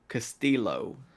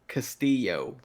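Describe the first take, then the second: First: The double L is said like an L sound. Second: The double L is said like a Y sound. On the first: This is how someone else has been saying it. The speaker calls it wrong. "And what do I say?" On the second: This is how the owner of the name says it. The speaker calls it right. "How do you say your name?"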